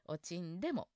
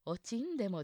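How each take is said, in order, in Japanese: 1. 'n'は低く下がります。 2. 'n'は高いままです。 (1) "んは低くなるんですね" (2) "おちんでもじゃなくて"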